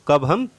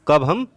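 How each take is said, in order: No difference in how they are said.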